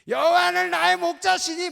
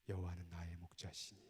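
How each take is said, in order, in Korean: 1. 크고 힘 있게 말합니다. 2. 낮은 목소리로 부드럽게 말합니다. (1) "막 이거 안 해도 이렇게 하지 말고" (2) "조용한 목소리로 나지막하게"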